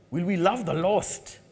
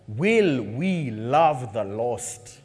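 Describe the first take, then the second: First: Said in the usual way. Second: Very slow, low, drawn-out question; slow solemn question. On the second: Real, not acted. Preacher asking the church to love the lost, slowly. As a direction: ask it slowly and let it land. Sermon closing point, slow.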